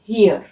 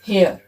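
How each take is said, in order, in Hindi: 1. यह स्वर 'ear' के स्वर जैसा सुनाई देता है। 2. यह स्वर 'air' के स्वर जैसा सुनाई देता है। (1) "ही अर, ही अर, ही अर, हियर।" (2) "अक्सर लोग क्या कहते हैं हियर को, हेयर। It's not हेयर"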